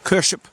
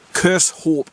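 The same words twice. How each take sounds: First: The name sounds like 'Kersh up'. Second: The name ends with a 'hope' sound. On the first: The speaker calls it right. "like Kersh up" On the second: The speaker calls it wrong. "I was pronouncing it Kershope, as we Brits would"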